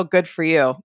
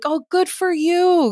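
First: It sounds sarcastic and annoyed. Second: It sounds warm, proud and sincere. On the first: The speaker resents what the other person did. "It's different" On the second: The speaker is truly happy for the other person. "I was really proud of you and happy for you"

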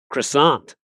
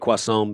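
First: The word has an English-style pronunciation. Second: The word has a French-style pronunciation. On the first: "But over here they say croissant" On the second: "I would say croissant because you and I have spent a significant amount of time in France"

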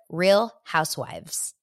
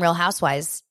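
First: The phrase is said slowly and carefully. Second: The phrase is said quickly and slurred. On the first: The speaker calls it right. "Saying it slowly, I can do it" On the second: The speaker calls it wrong. "if I'm talking really fast"

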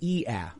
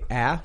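First: The vowel glides from an e into ah. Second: The vowel is a single open ah sound. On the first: This is how it sounds in Chicago. "to get the Chicago A, ... you say E-ah" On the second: This is not how it sounds in Chicago. "you don't say ah"

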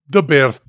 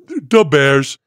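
First: It imitates Hondro's foreign accent. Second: It is said in a Chicago accent.

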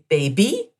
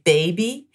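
First: The stress is on the last syllable. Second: The stress is on the first syllable. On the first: "the accent is on the end of the word" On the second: "we tend to emphasize the first part of a word"

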